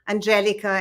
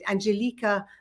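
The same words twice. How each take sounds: First: The name is said the usual American way. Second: The name is said in an exotic-sounding way.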